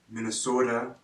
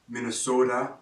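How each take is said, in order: Both takes have the same delivery.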